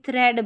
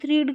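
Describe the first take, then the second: First: The vowel is a short 'eh' sound. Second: The vowel is a long 'ee' sound. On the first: The speaker calls it right. "ये थ्रेड बन रहा है" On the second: The speaker calls it wrong. "थ्रीड का मतलब कुछ नहीं होता"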